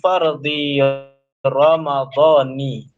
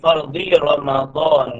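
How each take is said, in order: First: Ramadan ends with a final -i vowel. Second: Ramadan ends without a final -i vowel. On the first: The speaker calls it right. "Itu dibaca dengan majrur" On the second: The speaker calls it wrong. "yang yang baris yang biasa kita dengar"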